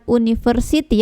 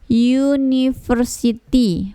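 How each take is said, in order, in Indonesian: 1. Kata ini diawali dengan vokal u biasa. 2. Kata ini diawali dengan bunyi y. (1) "bukan university ya" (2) "yang kedengaran huruf pertama yaitu y"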